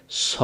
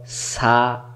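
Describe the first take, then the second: First: স as a heavy, rounded 'so'; corrected pronunciation. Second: সা with a long, open 'aa'; mistaken pronunciation. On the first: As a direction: round the mouth and hold স. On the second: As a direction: open the mouth on সা. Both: Shown as a demonstration. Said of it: "না, সা না".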